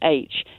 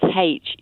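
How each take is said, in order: First: The letter is said the non-Irish way. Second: The letter is said the Irish way. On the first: This is not how people in Ireland say it. "You won't find anybody in Ireland that says H" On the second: This is how people in Ireland say it. "It's H"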